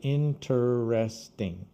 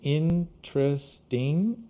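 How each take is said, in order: First: Every syllable is pronounced in full. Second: One syllable is dropped, making it shorter. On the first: Fewer native speakers say it this way. "instead of interesting" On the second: This is how most native speakers say it. "most people say interesting"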